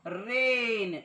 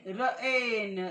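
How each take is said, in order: First: The vowel sounds like 'ay'. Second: The same.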